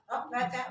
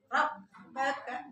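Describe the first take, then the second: First: The doubled b is rushed without pressure. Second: The doubled b is pressed and held. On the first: The speaker calls it wrong. "Tasdidnya ditabrak, ... enggak ada itu penekanan" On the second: The speaker calls it right. "hurufnya harus ditekan seperti hurufnya ada dua"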